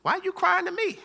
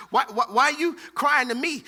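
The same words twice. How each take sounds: First: High incredulous God. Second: Said in the usual way. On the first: Retold or imitated. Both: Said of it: "God's reply".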